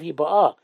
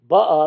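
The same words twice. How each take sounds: First: The stress is on the last syllable. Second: The stress is on the first syllable.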